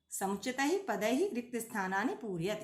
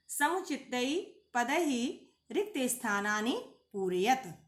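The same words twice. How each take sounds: First: Said in the usual way. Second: Says समुचितै पदैहि रिक्त स्थानानि पूरयत slowly, each word drawn out; slow recitation. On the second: Shown as a demonstration. Teacher reading the exercise heading to students, slow and measured. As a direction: recite the Sanskrit instruction slowly for the class.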